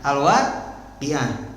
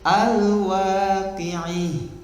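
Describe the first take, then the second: First: The final vowel is a plain open 'a'. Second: The final vowel is tilted toward 'i'. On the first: This is the common, widely known reading. "al-waqi'ah dibacanya apa?" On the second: This follows another imam's reading tradition. "Itu ada di imam yang lain itu dibacanya"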